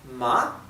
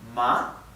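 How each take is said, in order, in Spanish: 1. El tono sube en la sílaba. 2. El tono sube en la sílaba.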